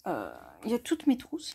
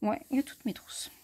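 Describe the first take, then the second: First: Said in the usual way. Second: Whispering. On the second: Real, not acted. Repeats the line under her breath.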